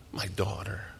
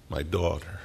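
First: Much softer, almost breathed away; soft, breaking-down murmur. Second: Said in the usual way. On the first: Retold or imitated. Jairus aching for his dying daughter, hushed murmur. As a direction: let it fall to a hush. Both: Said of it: "That's what he's thinking".

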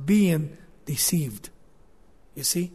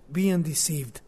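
First: Whispered. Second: Said in the usual way. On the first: Real, not acted. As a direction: breathe being deceived almost without voice. Preacher drops to hushed aside.

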